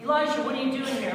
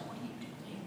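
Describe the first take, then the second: First: Higher, quick questioning call; challenging question. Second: Very soft, low near-whisper; hushed question. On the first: God to Elijah after the displays, challenging question. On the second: God repeating the question to Elijah, hushed. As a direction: ask it under your breath. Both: Acted.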